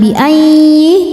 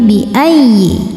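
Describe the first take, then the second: First: The doubled y sound is held long. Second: The doubled y sound is short and stressed. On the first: The speaker calls it wrong. "bukan bi ayyi" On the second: The speaker calls it right. "Ya tasydid tidak perlu ditahan ya, ... Cukup pakai naber"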